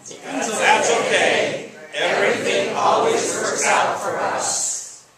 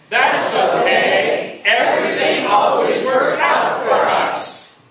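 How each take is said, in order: First: It is said at a normal volume. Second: It is said louder than normal.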